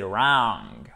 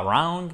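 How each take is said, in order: First: "wrong" low with a long, held vowel; long-vowel demo. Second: "wrong" with the vowel too short; short-vowel mistake demo. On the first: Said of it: "Pour faire cette voyelle longue". (« wrong » grave, voyelle bien longue) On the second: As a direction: show the mistake: a quick "wrong". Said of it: "C'est pas wrong". (« wrong » mal dit, voyelle trop courte) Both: Shown as a demonstration.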